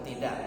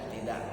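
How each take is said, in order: Both takes have the same delivery.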